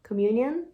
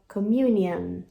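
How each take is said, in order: First: The word is said quickly and less carefully. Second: The word is said slowly with careful articulation.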